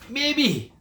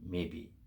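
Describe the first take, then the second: First: High, loud sneering echo of maybe; mocking echo. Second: Soft, low and unbothered; the old farmer answers the jealous farmers, calm and low; quiet calm maybe. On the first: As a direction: throw his word back with a sneer. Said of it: "the other farmers are thinking". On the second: Acted. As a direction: shrug it off softly. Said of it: "the farmer would say".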